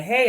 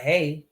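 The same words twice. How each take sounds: First: Higher-pitched, upbeat "hey"; imitated friendly greeting. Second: Imitated curt greeting. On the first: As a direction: greet them with a lifted, lively hey. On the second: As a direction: give back a short, indifferent hey. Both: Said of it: "why they say it like that".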